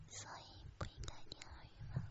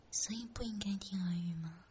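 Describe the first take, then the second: First: Distant, fast breathy whisper; airy whisper. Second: Said in the usual way. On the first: Shown as a demonstration. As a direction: whisper it faint and quick.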